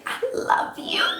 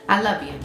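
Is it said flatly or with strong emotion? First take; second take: strong emotion; flatly. First: It is said with strong, warm emotion. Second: It is said plainly, without emotion.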